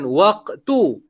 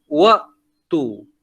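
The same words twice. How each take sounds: First: "waktu" said with an audible k before tu; k sound. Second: "waktu" said as wa', a catch, then tu; glottal stop. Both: Shown as a demonstration. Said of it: "bukan waktu".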